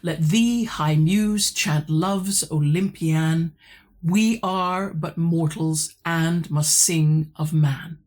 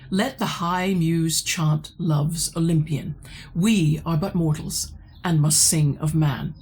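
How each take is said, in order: First: It is read with heavy, regular metrical stresses. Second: It is read naturally without a strong beat.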